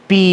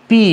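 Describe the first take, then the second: No difference in how they are said.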